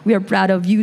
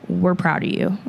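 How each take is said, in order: First: It is said with a French-Canadian accent. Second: It is said without a French-Canadian accent. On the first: "My mom has, like, a French-Canadian accent" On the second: "this is not my parents' voice at all"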